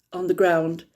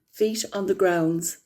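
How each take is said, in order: First: "ground" said cleanly with no final s, as the correction; corrected word. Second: "grounds" said with a final s, a quick slip; slip of the tongue. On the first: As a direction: fix the slip, landing on "ground" without the s. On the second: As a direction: let "grounds" end on an audible s before the fix. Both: Real, not acted.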